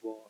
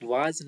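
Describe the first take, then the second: First: The vowel is a rounded 'aw' sound. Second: The vowel is an open 'ah' sound. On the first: The speaker calls it right. "मैं पहले बोलता हूँ" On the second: The speaker calls it wrong. "वाज नहीं, वाज कोई नहीं पढ़ेगा"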